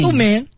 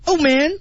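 First: It is said in a calm, plain way. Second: It is said intensely and desperately.

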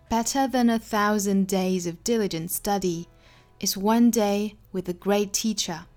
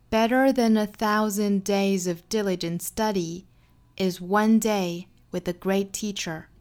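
First: It is read in a British accent. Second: It is read in an American accent. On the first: "首先我们来做英音的语音讲解" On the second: "下面用美音读一下"

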